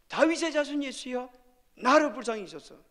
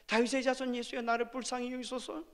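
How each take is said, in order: First: It is shouted loudly. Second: It is said at normal volume.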